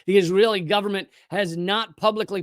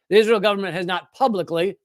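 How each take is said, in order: First: The word publicly is not given strong stress. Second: The word publicly is given strong stress. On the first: The speaker calls it wrong. "stress the wrong word" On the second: The speaker calls it right. "that's the key word"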